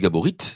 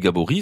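First: The final T is sounded. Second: The final T is silent. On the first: "selon que l'on prononce ou pas le T terminal" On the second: "selon que l'on prononce ou pas le T terminal"

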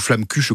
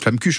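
First: It is pronounced the standard French way. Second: It is pronounced the local Alsatian way. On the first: This is how people outside the region say it. "comme on dit nous" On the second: This is how locals say it. "vous dites flammekuche"

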